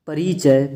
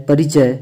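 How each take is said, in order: First: परिचय with a long "ree". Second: परिचय with a quick "ri"; short i. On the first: Teacher showing the error, long ee in परिचय. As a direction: stretch परिचय into "pareechay". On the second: Teacher giving the correct form, short i in परिचय. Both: Shown as a demonstration. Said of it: "बड़ी की मात्रा".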